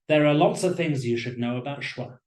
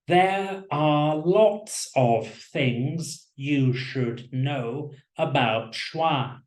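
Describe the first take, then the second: First: Small function words are reduced, with weak vowels. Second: Every syllable is stressed evenly and fully. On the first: The speaker calls it right. "in natural speech, this sentence probably sounds like" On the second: The speaker calls it wrong. "in a very robotic and boring way. I'll stress every syllable"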